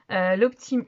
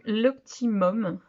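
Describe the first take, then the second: First: Said in the usual way. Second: "l'optimum" spelled out slowly, each syllable separate; careful restart. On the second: Real, not acted. Correcting herself on the palette name "l'optimum", said slowly and carefully.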